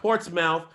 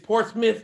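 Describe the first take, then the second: First: The last syllable is said fully like 'mouth'. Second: The last syllable is reduced to a short 'muth'. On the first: This is how an outsider reads the name. The speaker calls it wrong. "not Portsmouth" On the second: This is how the locals say the name. The speaker calls it right. "It's Portsmouth"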